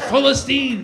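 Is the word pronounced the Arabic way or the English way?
Arabic. The word has an Arabic pronunciation. The name feels free.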